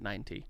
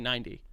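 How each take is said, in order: First: The T sound is pronounced clearly. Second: The T sound is softened or dropped. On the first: "Because it's spelled with a T. ... for this the conversation, I pronounce it ninety" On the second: "normally I'll say ninety"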